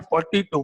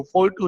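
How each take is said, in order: First: फ़ोर्टी टू said as the single number forty-two; read as one number. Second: फ़ोर टू said as two separate digits, four then two. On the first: Teacher showing students the right reading, फ़ोर्टी टू as one number. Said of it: "फ़ोर्टी टू बोल रहे हैं आप". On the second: Teacher showing students the wrong reading, फ़ोर टू digit by digit. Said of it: "नहीं". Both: Shown as a demonstration.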